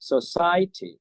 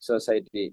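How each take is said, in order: First: The pitch rises then drops across the word. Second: The word is said with level, flat pitch. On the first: This is how native speakers say it. The speaker calls it right. "இப்படித்தான்" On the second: This is how locals say it. The speaker calls it wrong. "சாதாரணமா சொல்லுவோம்"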